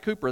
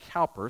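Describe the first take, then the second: First: The first vowel sounds like the vowel in coo. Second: The first vowel sounds like the vowel in cow. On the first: The speaker calls it right. "I pronounce it Cooper, that's the way it's pronounced" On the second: The speaker calls it wrong. "It looks like Cowper"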